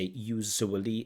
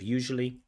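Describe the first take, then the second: First: The middle consonant is said the Bangladeshi-accented way. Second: The middle consonant is said the standard English way. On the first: The speaker calls it wrong. "They have a problem with this j sound, so they say usually" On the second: The speaker calls it right. "instead of usually"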